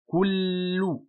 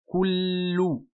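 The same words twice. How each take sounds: The two takes are said the same way.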